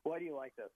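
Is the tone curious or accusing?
accusing. It is asked in an accusing, disapproving tone.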